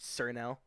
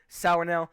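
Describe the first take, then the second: First: The first word sounds like 'sir'. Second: The first word sounds like 'sour'. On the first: The speaker calls it wrong. "I don't know why people pronounce it Sir Nail" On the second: The speaker calls it right. "it's called Sour Nail"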